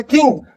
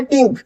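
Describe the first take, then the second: First: "थिंक" with tongue touching the teeth; TH sound. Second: "टिंक" with a hard T, tongue behind teeth; plain T sound. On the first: Teacher showing TH, "थिंक" with tongue on teeth. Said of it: "दांतों से touch हो रही है". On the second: Teacher contrasting with TH, hard-T "टिंक". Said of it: "जीभ pressure नहीं करी". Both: Shown as a demonstration.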